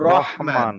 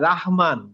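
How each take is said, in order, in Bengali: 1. প্রথম অক্ষরটি ভারী ও গোল শোনায়। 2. প্রথম অক্ষরটি হালকা ও খোলা শোনায়। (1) "বলবো রহমান" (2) "আমরা বলবো না যে"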